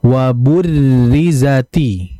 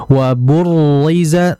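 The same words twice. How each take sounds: First: Slow wa burrizati with a light trill; correct: thin ro. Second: Slow wa burriza with a thick ro; wrong: thick ro; heavy ro. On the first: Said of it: "Yang betul". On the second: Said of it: "itu ketebalan". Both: Shown as a demonstration.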